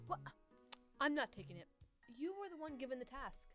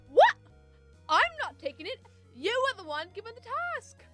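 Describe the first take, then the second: First: It is read with little emotion. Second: It is read with strong emotion.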